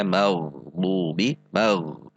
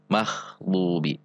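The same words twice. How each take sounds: First: Maghbubi with a voiced friction after MA; correct ghain. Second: Mahbubi with air flowing voiceless after MA; wrong kha. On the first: Correcting learners, voiced rubbing maghbubi. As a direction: hold a voiced GH rub in "maghbubi", no push of air. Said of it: "Ada gesekan". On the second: Warning learners ghain became kha, voiceless mahbubi. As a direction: draw out "mahbubi" with a KH scrape mid-word. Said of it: "mengubah ghain menjadi kha". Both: Shown as a demonstration.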